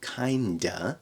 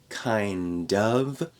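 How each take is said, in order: First: The two words are linked into one reduced word. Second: The two words are said separately and fully.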